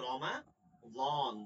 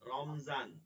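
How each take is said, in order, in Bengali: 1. মাঝের ব্যঞ্জনটি একটি ভারী d ধ্বনি। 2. মাঝের ব্যঞ্জনটি z-এর মতো শোনায়। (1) "মূল উচ্চারণ রমা দন, দদ দিয়া।" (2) "আমরা বাংলায় বলি কি?"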